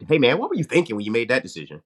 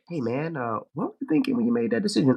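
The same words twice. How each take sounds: First: Fast, at normal pitch; steady, level question; calmer version. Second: Much higher and rushed; a high, fast, exasperated demand; high, fast version. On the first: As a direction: ask it evenly, stress on "were". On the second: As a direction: fire the question off high and quick. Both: Shown as a demonstration. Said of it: "as opposed, like you say".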